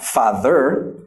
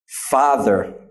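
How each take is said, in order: First: The second syllable is strong and full. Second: The second syllable is weak and reduced. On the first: The speaker calls it wrong. "not father" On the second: The speaker calls it right. "since it's father, and this is the stressed syllable, this will receive the unstressed schwa symbol"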